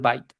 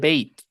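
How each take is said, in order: First: The vowel sounds like the one in 'eye'. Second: The vowel sounds like the one in 'day'. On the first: The speaker calls it wrong. "aquí no dice byte" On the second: The speaker calls it right. "aquí dice bait"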